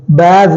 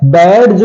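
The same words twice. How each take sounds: First: "बैज" said baij, no separate d; silent D. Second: "बैज" said as baid-j, d heard; sounded D. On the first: Teacher giving the correct badge, silent D. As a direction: glide straight to j in "बैज". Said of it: "बैज बोलते हैं". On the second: Teacher showing the wrong badge, sounded D. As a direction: put a hard d into "बैज". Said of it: "बैज नहीं बोलते". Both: Shown as a demonstration.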